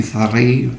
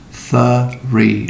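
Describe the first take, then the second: First: "three" said too quickly, cluster rushed; clipped fast "three"; wrong quick three. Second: "three" stretched, a little vowel between th and R; careful "three" with the cluster opened; slow three. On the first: Teacher showing the wrong quick way. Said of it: "Don't say too quickly". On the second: Teacher showing the slower right way. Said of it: "but three". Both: Shown as a demonstration.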